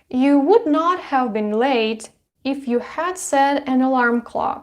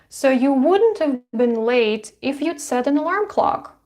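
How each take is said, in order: First: Every word is said in its full form. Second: The verbs are said as short contractions. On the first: "instead of saying would not have been" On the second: "it's easier, it's more fluent, it's more natural"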